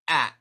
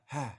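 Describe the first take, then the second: First: The vowel starts with a sharp glottal catch. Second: The vowel starts with a breathy h sound. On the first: "that really strong glottal onset" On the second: "versus the ha"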